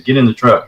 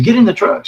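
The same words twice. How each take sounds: First: Said in the usual way. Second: Put-on high, pressing order to a child; urgent shout. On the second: Uncle to frightened nephew near the creature, a high urgent order. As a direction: get him in the truck now.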